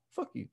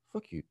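First: Barely-there mock whisper, very soft; even lower whisper. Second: Hushed, low mock whisper; imitated whisper. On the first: Customer asked what he just said, whispering even lower. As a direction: repeat the insult under your breath. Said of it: "Even lower". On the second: Muttering an insult at the movers walking away, whispered. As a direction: slip it out under the breath. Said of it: "he didn't just whisper".

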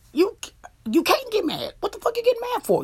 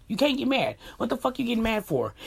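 First: High-pitched, incredulous scolding, rushing the question; exasperated rebuke. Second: Said in the usual way. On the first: Real, not acted. Vlogger telling cheaters they can't get mad, high exasperated rebuke. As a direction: pitch leaping high, indignant.

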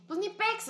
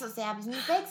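First: Squeaky shrug. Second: Said in the usual way. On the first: Acted. Shrugging off her friend's quirks.

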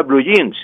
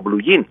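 First: "blue jeans" said the English way, ending on a clear s; "jeans" with an English j sound and a final s. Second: "blue jean" said as Spanish blu yin, no final s; "jean" with a soft Spanish y sound and no s. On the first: Teacher on radio contrasting English with Spanish, English pronunciation. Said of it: "y se pronuncia blue jeans". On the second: Teacher on radio showing the Spanish way to say it. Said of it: "así como lo estoy diciendo". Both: Shown as a demonstration.

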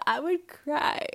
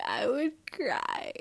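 First: High, slow whiny wail; mock crying. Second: High, slow breathy whisper. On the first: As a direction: wail it like a fake sob. First take, voiced whine. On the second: Pretend. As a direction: breathe it out like a fake sob. Imagines crying over bad bending.

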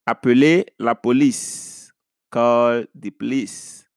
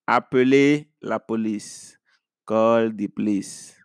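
No difference in how they are said.

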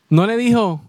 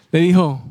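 First: "dijo" pressed higher; weight on "dijo"; stress on dijo. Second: "dijo" stressed with a falling tune. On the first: Preacher stressing what Jesus said, "dijo" stressed. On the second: Preacher repeating what Jesus said, "dijo" firm. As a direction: lean on "dijo". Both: Shown as a demonstration.

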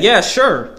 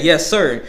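First: "Yeah, sure" with a clear sure; the right version, "Yeah, sure", sure sounded out; what I really said. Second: "Yes, sir" said plainly, sir ending in a short er; the misheard version, "Yes, sir" with the r-less sir. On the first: Worker showing the manager what he actually said, "Yeah, sure". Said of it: "But I said". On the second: Worker showing what the manager misheard, "Yes, sir". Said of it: "she thought I said". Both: Shown as a demonstration.

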